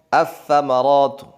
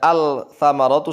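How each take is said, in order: First: The L merges into a doubled following consonant. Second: The L is clearly pronounced before the consonant. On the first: The speaker calls it right. "langsung kepada sa" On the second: The speaker calls it wrong. "Kalau dibaca al-tsamaratu salah"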